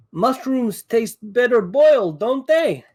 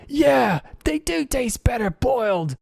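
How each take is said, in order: First: High, drawn-out taunting yell; in-character yell. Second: High-pitched voice of a gullible Duergar; Duergar's shouted reply. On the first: Player yells his bonus-action taunt at the Duergar, high-pitched yell. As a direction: call it out slowly, pitched way up. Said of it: "I'll yell". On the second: Game master's Duergar looks up and answers the taunt, high calling voice. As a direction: call back in agreement, pitched way up. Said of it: "he looks up and he says". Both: Acted.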